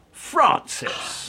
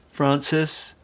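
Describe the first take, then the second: First: High, sharp call of "Francis!"; exasperated call. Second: Said in the usual way. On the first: Acted. Calling her, exasperated.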